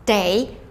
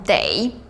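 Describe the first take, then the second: Both takes have the same delivery.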